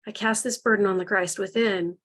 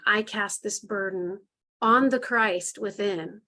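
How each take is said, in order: First: Leaning on "burden", letting the line fall at the end; stress on burden. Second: Slow, deliberate, every word placed evenly; slow affirmation. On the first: Leader repeats the affirmation, leaning on "burden". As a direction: press into "burden" as you hand it over. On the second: Leader models the affirmation for the group, slow and deliberate. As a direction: speak it like a solemn vow, slowly. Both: Shown as a demonstration. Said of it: "And then say your affirmation".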